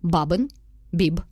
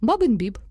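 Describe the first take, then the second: First: There is a pause after each word. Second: The two words run together without a pause. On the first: "кожне окреме слово ми робимо після нього паузу" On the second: "Потім ми по два слова"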